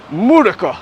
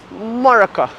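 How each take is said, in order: First: "Murica" said loud and high, first syllable dropped. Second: "America" said as /mɔɹəkə/, high and loud; Chica's America. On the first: Teaching Chica the word, a loud mock "Murica". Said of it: "I'm like". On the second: Imitating Chica's try at "America", loud and high. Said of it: "how to say America". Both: Retold or imitated.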